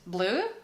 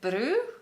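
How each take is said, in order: First: The word is said with a clear L sound. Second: The word is said with an R-like sound. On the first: "which is blue" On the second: "they were saying "bru,""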